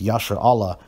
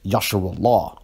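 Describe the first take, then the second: First: The vowel before 'llah' sounds like 'a'. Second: The vowel before 'llah' sounds like 'u'. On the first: This is the standard form. "the standard one West" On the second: This form nods slightly to Arabic. "he says Yasharullah, which I kind of like"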